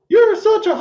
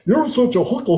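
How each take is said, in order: First: It is said in a high, squeaky cartoon voice. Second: It is said in a dopey, goofy cartoon voice. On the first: "do it in Mickey Mouse's voice" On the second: "start out with Goofy from Disney"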